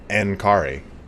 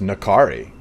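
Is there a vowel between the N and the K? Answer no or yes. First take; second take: no; yes. First: The N runs straight into the K. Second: A vowel is heard between the N and K. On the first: "with the N like that, it would be like a like N Kari" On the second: "it was just Nakari"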